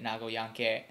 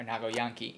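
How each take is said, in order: First: Nago Yankee said with an English flat a; English-sounding Nago Yankee; English-style name. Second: Nago Yankee said with a Japanese open a, jahnkee; Japanese-style name. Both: Shown as a demonstration. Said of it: "weird to say it back and forth between English and Japanese".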